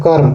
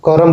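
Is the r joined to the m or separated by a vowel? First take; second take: joined; separated. First: The r joins directly onto the m. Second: A vowel separates the r and the m. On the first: This is the standard Hindi form. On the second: This is the Nagpuri form.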